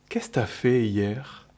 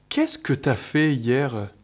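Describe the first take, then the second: First: The word 'que' is dropped entirely. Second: The word 'que' is fully pronounced.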